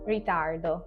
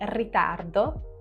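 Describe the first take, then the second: First: The R sounds like an American R. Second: The R is a tongue-tip trill. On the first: "it's more like a, an, an American or a Canadian R" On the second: "Instead of saying ritardo"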